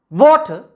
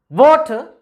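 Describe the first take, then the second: First: The stress is on the first syllable. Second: The stress is on the first syllable.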